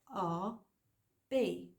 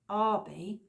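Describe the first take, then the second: First: It is two separate letters with even stress. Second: It is one word stressed on the first syllable. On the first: It stands for someone's initials. "like initials" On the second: It is a surname. "with the stress at the start of the name"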